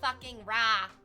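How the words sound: It is said in a Canadian accent. The speaker calls it wrong. "You can't do it with Canadian accent because then it turns into"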